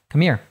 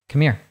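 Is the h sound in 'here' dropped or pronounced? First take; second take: dropped; dropped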